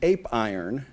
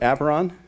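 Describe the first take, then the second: First: It is said as two words, 'ape' and 'iron'. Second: It is said as 'aperon', with no 'ape' sound. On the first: This reads the name letter by letter as it is spelled. The speaker calls it wrong. "you can spell it correctly, which is ape iron" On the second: This is how the name is meant to be said. The speaker calls it right. "you can say it correctly"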